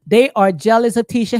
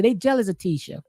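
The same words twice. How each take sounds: First: They are jealous of Tisha, louder, with They hit hard; louder, insistent They at the front; emphatic restatement. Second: Said in the usual way. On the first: Shown as a demonstration. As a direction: lean on They, as if settling it.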